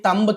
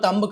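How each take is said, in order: First: The word ends on a b sound. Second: The same.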